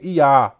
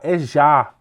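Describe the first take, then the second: First: The word begins with a Y sound. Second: The word begins with a J sound. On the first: The speaker calls it wrong. "Não se lê Iá" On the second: The speaker calls it right. "No lugar do Y é o som de J"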